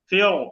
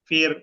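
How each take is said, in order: First: The r sound is heavy and thick. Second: The r sound is light and thin. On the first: The speaker calls it wrong. "এরকম না" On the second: The speaker calls it right. "অর্থাৎ ঠোঁটটা একটু নিচের দিকে যাবে।"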